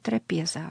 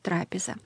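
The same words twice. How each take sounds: First: It is pronounced the Church Slavonic way. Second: It is pronounced the ordinary Russian way. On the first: "по-церковно-славянски надо говорить «трапеза»" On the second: "а по-русски «трапеза»"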